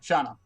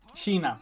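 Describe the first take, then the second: First: The first vowel sounds like 'ah'. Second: The first vowel sounds like 'ee'. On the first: The speaker calls it wrong. "That's how it's pronounced, right?" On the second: The speaker calls it right. "Sheena, not Shana"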